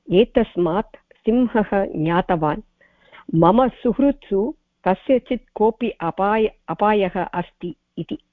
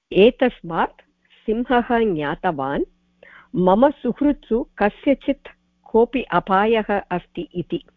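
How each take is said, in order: No difference in how they are said.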